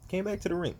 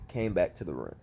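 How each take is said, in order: First: Pitched up in disbelief; incredulous. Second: Said in the usual way. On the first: Real, not acted. Wrestling fan ranting to viewers, incredulous. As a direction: stress BACK, higher, can't believe it. Repeats line, higher, incredulous.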